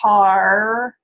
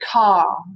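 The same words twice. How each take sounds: First: The R sound at the end is pronounced. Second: The R sound at the end is dropped. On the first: "instead of saying car" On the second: "where there's no R"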